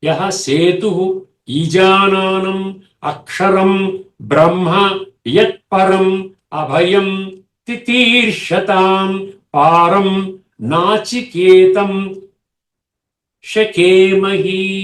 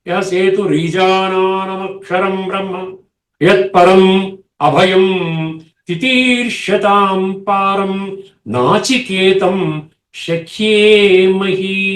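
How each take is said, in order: First: The words are split apart, each said separately. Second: The words run together into joined forms. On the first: "ఇప్పుడు విడగొట్టి చదువుతాను చూడండి" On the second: "ఇది నేను మామూలుగా మంత్రం చదివేశాను"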